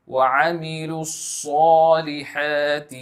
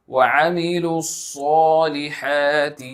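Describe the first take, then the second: No difference in how they are said.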